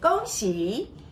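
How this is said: It is pronounced the Mandarin way. "New Year greetings for people who speak Mandarin"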